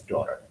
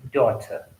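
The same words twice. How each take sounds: First: Daughter with a flapped d-like t and a final r; American daughter. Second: Daughter with a crisp t and no final r; British daughter. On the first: Teacher showing students the American daughter, flapped t. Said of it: "American speaker will pronounce it as". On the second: Teacher showing students the British daughter, crisp t. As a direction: say daughter the British way, clear t, r dropped. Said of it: "British speaker will pronounce word". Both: Shown as a demonstration.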